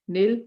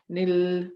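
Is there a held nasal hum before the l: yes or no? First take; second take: no; yes. First: The n merges into l without nasal hum. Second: A held nasal hum comes before the l. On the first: The speaker calls it right. "we say nil and nar. We'll apply the idgham without a gunna" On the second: The speaker calls it wrong. "we won't say nil, nar, we won't put gunna"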